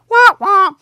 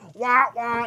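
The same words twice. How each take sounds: First: The horn sound is imitated with a higher pitch. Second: The horn sound is imitated with a lower pitch.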